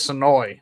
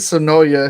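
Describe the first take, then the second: First: The name ends without an extra vowel. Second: The name ends with an extra 'uh' vowel. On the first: This is how the local person says the name. "She was like, "It's Sonoy."" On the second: The final letter of the written name is pronounced. "I said Sonoya"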